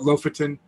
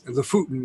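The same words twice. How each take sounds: First: It is said with an American pronunciation. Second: It is said with a native Norwegian pronunciation. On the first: This is how most Americans say it. The speaker calls it wrong. "most Americans call it" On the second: This is the proper local form. The speaker calls it right. "is the proper pronunciation"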